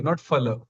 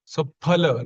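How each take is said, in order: First: "phala" said with an English f; "phala" with the lip against the teeth; wrong phala. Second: "phala" begun with both lips and a breathy p; "phala" with an aspirated p, never an f; correct phala. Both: Shown as a demonstration.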